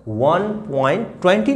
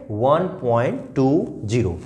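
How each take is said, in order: First: 'ट्वेंटी' said as one number after the point; the wrong way: 'one point ट्वेंटी' as a whole number; wrong reading. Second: 'टू ज़ीरो' read as separate digits after the point; right reading. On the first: Teacher warns children against reading 'ट्वेंटी' after the point. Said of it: "नहीं बोलेंगे". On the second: Teacher gives children the correct digit-by-digit answer. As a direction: read 'टू' then 'ज़ीरो', one digit at a time. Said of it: "क्या बोलेंगे?". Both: Shown as a demonstration.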